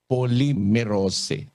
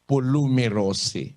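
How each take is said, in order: First: The first part is said like 'poly'. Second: The first part is said like 'polu'. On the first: It is read the way people usually say it. The speaker calls it right. "pangkaraniwan binabasa nila ito, poly" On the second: It is read letter by letter from the dictionary spelling. The speaker calls it wrong. "kung di mo alam na basahin sa Grego, babasahin mo ito"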